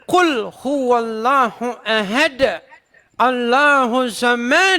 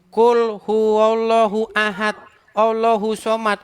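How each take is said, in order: First: It is recited with careful Arabic-style articulation. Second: It is recited casually with local-style sounds. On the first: The speaker calls it right. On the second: The speaker calls it wrong. "Saya bacanya begini. ... Dimarah saya. ... Bacanya bukan begitu"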